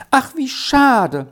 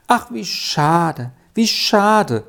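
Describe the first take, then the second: First: Bursting out high and drawn out; child cries out in dismay; exclaiming. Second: Slow, wailing lament. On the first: Sally bursts out to Erik in dismay. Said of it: "Jetzt rief sie ausbrechend". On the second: Sally laments Erik's fate, wailing. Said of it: "jammerte Sally". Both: A narrator's reading.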